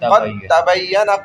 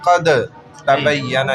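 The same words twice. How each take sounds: First: The d sound merges completely into the t. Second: The d sound is pronounced separately before t. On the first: The speaker calls it right. "खौफ डायरेक्ट ता में दाखिल हो जाएगा" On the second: The speaker calls it wrong. "हम ये नहीं बोलेंगे"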